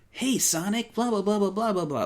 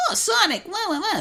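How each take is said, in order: First: Put-on high but more natural kid voice; lighter, less whiny cartoon falsetto; Tails. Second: Whiny, very high loud falsetto; Tails. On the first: Podcaster showing the easier-on-the-ears Tails, natural high take. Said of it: "It's more natural sounding". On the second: Podcaster contrasting old Tails voices, whiny high take. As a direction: squeal it like an early whiny cartoon sidekick. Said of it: "It's less whiny". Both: Shown as a demonstration.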